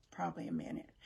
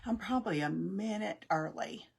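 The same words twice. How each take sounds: First: Under-the-breath repeat, half to herself; breathy near-whisper correction; whispered aside. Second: Said in the usual way. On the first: Real, not acted. Muttered repeat to self.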